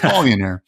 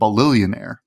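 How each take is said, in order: First: The word has no extra 'lil' syllable. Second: The word has an extra 'lil' syllable. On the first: The speaker calls it right. "So it's Balionaire" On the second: The speaker calls it wrong. "I keep on saying Balillionaire, but that's not how it's spelled"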